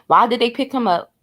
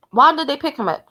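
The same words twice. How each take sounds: First: Said in the usual way. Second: Higher, insistent why; pressing repeat. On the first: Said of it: "repeats the question". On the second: Real, not acted. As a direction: push the question harder. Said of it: "repeats the question, pressing".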